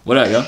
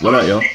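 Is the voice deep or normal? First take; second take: normal; deep. First: It is said in a normal speaking voice. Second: It is said in a put-on deep voice.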